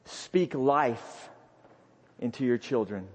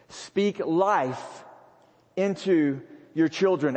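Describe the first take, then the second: First: Soft and low. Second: Said in the usual way. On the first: Real, not acted. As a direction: speak life spoken low and soft. Quiet first take of hint.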